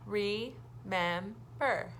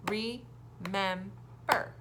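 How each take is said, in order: First: "Remember" very slow, one beat per syllable, falling at the end; teacher repeating the clapped word. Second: "Remember" very slow, one beat per syllable; teacher clapping out syllables; clapped syllables. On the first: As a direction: clap "Remember" again and land it. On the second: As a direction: clap out "Remember" part by part, slowly. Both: Shown as a demonstration. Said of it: "practice by clapping".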